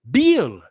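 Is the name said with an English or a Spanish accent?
Spanish. The name is said with a Spanish accent. The speaker calls it wrong. "they say, oh"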